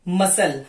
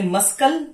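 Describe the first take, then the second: First: There is no k sound. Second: A k sound is pronounced. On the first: The speaker calls it right. "Silent letter सी" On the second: The speaker calls it wrong. "हमने मस्कल नहीं बोला है"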